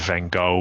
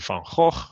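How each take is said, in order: First: The name is said with non-Dutch pronunciation. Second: The name is said with Dutch pronunciation. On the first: The speaker calls it wrong. "they all make it Van Gogh" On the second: The speaker calls it right. "It's actually Van Gogh"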